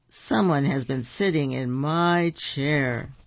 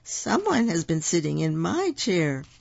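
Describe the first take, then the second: First: It is said in a big, deep voice. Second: It is said in a middle-sized voice. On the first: The largest bear is speaking. "said the papa bear in his great big chair" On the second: The middle-sized bear is speaking. "said mama bear in her middle-sized voice"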